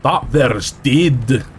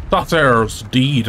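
First: Put-on slow, drawn-out Scottish accent; second, more careful go at a Scottish accent. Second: Slow attempt at Scottish that slips into Irish; botched Scottish accent sounding Irish. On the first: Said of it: "I'm trying to do Scottish". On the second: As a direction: aim for Scottish, land on Irish. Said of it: "went Irish when I'm trying to do Scottish".

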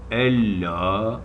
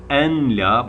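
First: Ella with a doubled l, the n silent; as it is read. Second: En la read slowly as two written parts; letter by letter. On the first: Teacher showing how it is actually read. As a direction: join en la into Ella. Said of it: "ella okunuyor". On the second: Teacher showing how the word is written, slow. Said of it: "Yazılışı en la". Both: Shown as a demonstration.

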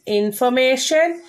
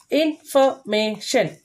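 First: Said in the usual way. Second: "Information" slowly, in four separate beats; slow "Information", a gap after each syllable. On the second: Shown as a demonstration. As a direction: break "Information" into in-for-ma-tion. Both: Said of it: "These are four syllable words".

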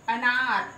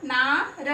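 First: Said in the usual way. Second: ना held long, र set apart; long vowel. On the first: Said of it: "हम इसको बोलेंगे अनार". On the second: Shown as a demonstration. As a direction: stretch the आ of नार and split off the र. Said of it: "इसको लंबा बोलेंगे हम". (नार में ना लंबा खींचकर, र अलग)

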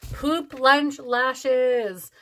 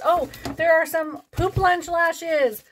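First: Very slow, deliberate repeat of the name; drawn-out amused repeat; savoured repeat. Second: High, drawn-out excited oh; light up at the find; slow delighted discovery. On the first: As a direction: relish each word. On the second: Discovering novelty lashes. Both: Real, not acted.

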